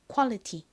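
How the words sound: It is said Korean-style with a clear t sound. The speaker calls it wrong. "quality가 아니라"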